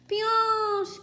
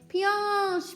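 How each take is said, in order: First: It is shouted very loudly. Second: It is said louder.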